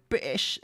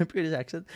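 First: British accent. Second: Said in the usual way. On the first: Shown as a demonstration. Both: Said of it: "I think I've developed a Brit".

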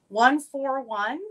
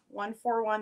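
First: One four one drawn out slowly, louder, rising at the end; number stated clearly. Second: Said in the usual way. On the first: Shown as a demonstration. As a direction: announce One four one slow and emphatic. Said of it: "stating the item number". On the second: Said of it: "repeating the item number".

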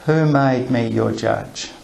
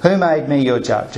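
First: Slow sincere who made me your judge; genuine question. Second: Brisk rhetorical question, not really asking; dismissive who made me your judge; rhetorical brush-off. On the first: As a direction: pose it slowly so they think it over. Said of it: "What if he wants them to think about this?". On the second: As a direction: toss it off as a rhetorical jab. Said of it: "It sounds a bit rhetorical". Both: Shown as a demonstration.

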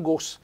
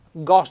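First: "gos" with a closed O. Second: "gos" with a nice open O. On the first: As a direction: show the rejected GOS, O closed. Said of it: "non gos". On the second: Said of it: "gos con una bella O aperta". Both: Shown as a demonstration.

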